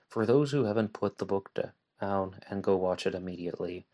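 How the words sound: The sentence is read with weak, unclear pauses. The speaker calls it wrong.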